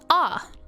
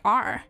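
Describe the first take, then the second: First: The R is said in an English accent. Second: The R is said in an American accent. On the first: "So you've got ah for English" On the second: "how do you say American R?"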